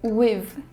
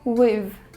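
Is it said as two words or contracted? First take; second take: contracted; contracted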